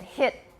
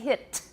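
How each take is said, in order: First: The final t is held without release. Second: The final t is released with audible air. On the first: "I said hit. ... Unreleased, right?" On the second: "I didn't say hit"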